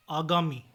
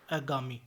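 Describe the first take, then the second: First: Said in the usual way. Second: आगामी opening on short a or e; mispronunciation. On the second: Shown as a demonstration. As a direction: cut the first aa of आगामी short. (आगामी को अगामी बोलें) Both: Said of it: "आगामी नहीं".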